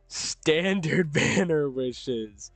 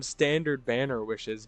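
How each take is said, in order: First: Very slow, drawn-out "standard banner wishes"; mock emphasis. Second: Said in the usual way. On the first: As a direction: stretch each word of "standard banner wishes" sardonically. Mocks own choice, drawn-out repeat.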